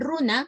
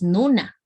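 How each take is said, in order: First: The word begins with an r sound. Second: The word begins with an n sound. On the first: This is the older form kept in Conchucos. "en Conchucos, que mantiene el quechua antiguo... pronuncian y dicen runa" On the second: This is the changed local form of Huaylas. "aquí en Huaylas y en las vertientes ha variado y decimos nuna"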